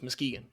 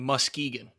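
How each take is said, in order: First: The U and K sounds are softened. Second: The U and K sounds are heavily emphasized. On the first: The speaker calls it right. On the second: The speaker calls it wrong. "you're putting so much emphasis on that K and the U"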